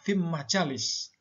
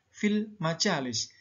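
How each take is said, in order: First: The L merges into a doubled following M sound. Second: The L is pronounced clearly before the M sound. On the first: The speaker calls it wrong. "Tidak boleh dibaca" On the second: The speaker calls it right. "maka dibaca"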